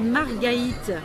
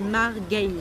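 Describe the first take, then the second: First: The name is said with three syllables. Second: The name is said with two syllables. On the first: It shows that the diaeresis is there. "je dis Margaïte pour faire comprendre aux gens le tréma" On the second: It is how the name is really said. "la vraie prononciation, c'est Margaïte ... deux syllabes"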